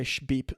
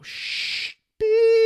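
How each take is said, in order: First: Said in the usual way. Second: Self-censor beep. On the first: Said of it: "He didn't say". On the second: Shown as a demonstration. Bleeping out the boss's swear for the show, high squeak. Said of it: "That's just me, since I don't cuss on the show".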